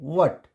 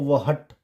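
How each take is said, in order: First: "what" as one syllable, no h; correct, silent h. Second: वहट in two syllables with audible h; mispronounced "what" as वहट; wrong, h sounded. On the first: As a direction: say "what" as wut. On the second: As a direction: say वहट as wuh-hut. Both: Shown as a demonstration. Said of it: "नहीं पढ़ेंगे".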